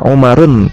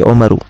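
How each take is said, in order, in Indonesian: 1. Kata ini diakhiri bunyi n tambahan. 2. Kata ini diakhiri vokal biasa. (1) "tidak dibaca"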